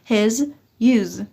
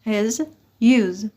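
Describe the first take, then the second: No difference in how they are said.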